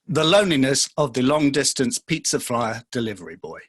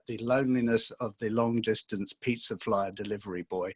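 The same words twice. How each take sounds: First: It is said in a put-on character voice. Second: It is said in his natural voice.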